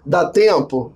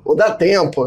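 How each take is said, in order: First: "dá tempo?" asked as a question, weight on TEMPO. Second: "dá tempo" asserted, stress up on DÁ; optimistic DÁ TEMPO. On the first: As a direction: ask "dá tempo?" as if in doubt. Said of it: "tem aquela interrogação". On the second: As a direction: affirm "dá tempo" with a lift on "dá". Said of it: "aquela abordagem otimista". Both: Shown as a demonstration.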